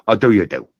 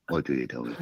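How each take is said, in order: First: Louder, firm declaration; boldly accepting the deal; emphatic agreement. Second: Much softer and lower, muttered; mumbled echo of the deal; quiet repeat. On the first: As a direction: announce it like sealing a bargain. Agreeing to receptionist's terms. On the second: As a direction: say it again under your breath. Repeats it to himself. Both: Real, not acted.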